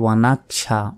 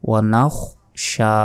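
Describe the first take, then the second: First: A plain k sound comes before the sh. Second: A raspy kh sound comes before the sh. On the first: The speaker calls it wrong. "অনাকশা নয়, কাফের উচ্চারণ করলে হবে না" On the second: The speaker calls it right. "এখানে খ আছে"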